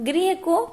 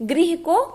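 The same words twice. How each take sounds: The two takes are said the same way.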